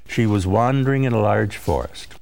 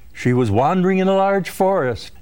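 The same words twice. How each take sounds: First: It is said in a calm, level tone. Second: It is said in a lively, exclaiming tone. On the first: The speaker is asserting a fact. "The first makes an assertion" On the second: The speaker is exclaiming.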